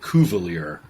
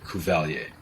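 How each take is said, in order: First: The name is pronounced with an English accent. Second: The name is pronounced with a French accent. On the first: This is how the local family says it. "they say it Cuvelier" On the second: This is the name's original pronunciation. "it's definitely Cuvelier"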